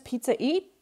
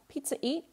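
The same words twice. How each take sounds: First: The voice rises at the end, a question. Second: The voice falls at the end, a statement.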